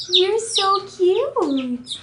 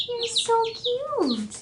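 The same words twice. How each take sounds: First: Very slow, higher cooing. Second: "You're so cute" said slow, higher and much softer. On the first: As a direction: stretch out "You're so cute" slowly and higher, cooing at the chick. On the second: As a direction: hush "You're so cute" gently, high and slow. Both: Real, not acted. Cooing at a chick, repeated.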